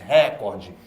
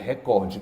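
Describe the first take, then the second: First: The stress falls on the first syllable. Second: The stress falls on the second syllable. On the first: The speaker calls it wrong. "O Jornal Nacional todo dia diz recorde" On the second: The speaker calls it right. "mas é recorde, creia em mim"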